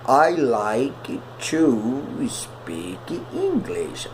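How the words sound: The pitch rises high with lively intonation.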